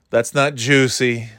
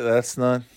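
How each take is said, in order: First: Not drawn out slowly and leaned on; emphatic slow not in that's not juicy; stress on not. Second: Said in the usual way. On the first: Shown as a demonstration.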